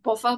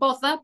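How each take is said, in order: First: The middle consonant is a v sound. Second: The middle consonant is a th sound. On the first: "but they pronounced it bother" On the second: "as in bother"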